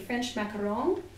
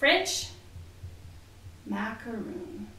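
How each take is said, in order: First: The last syllable sounds like 'ron' with an 'o' vowel. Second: The last syllable sounds like 'roon' with an 'oo' vowel. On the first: "Now you might say it differently" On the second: "I'm sorry if I said it wrong the way that you might have said it"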